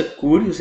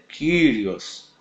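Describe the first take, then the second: First: "Kyrios" said "kúrios", with Y as U; "Kyrios" as koo-ree-os, the wrong way; wrong pronunciation. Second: "Kyrios" said "kírios", with Y as I; "Kyrios" as kee-ree-os; correct pronunciation. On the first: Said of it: "A pronúncia Kyrios é incorreta". ("Kyrios" pronunciado errado, "kúrios") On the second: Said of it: "a pronúncia correta é Kyrios". ("Kyrios" pronunciado certo, "kírios") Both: Shown as a demonstration.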